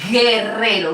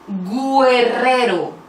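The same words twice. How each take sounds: First: No U sound is heard after the G. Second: A U sound is heard after the G. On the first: The speaker calls it right. "decimos guerrero" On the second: The speaker calls it wrong. "No decimos guerrero"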